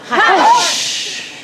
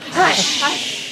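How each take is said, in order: First: It is said loudly. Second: It is said quietly.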